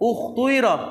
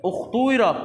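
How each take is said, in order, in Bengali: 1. মাঝের স্বরধ্বনিটি গোলাকৃত 'oo' ও 'ee'-এর মিশ্রণ। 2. মাঝের স্বরধ্বনিটি গোলাকৃত 'oo' ও 'ee'-এর মিশ্রণ।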